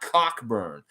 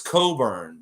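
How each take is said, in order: First: The name is said as Cock-burn, with a k. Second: The name is said as Co-burn, with no k. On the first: The speaker calls it wrong. "it's not Cockburn" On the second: The speaker calls it right. "You know that it's Coburn"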